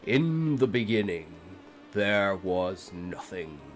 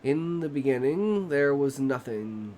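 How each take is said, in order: First: It is read in a dramatic, epic voice. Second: It is read in a plain, ordinary voice.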